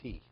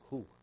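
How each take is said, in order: First: The word is said with an 'ee' vowel. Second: The word is said with an 'oo' vowel. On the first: This is how the neighboring congregation pronounces it. "Every who is he" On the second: This is the speaker's own way of pronouncing it. "There's no such thing as who"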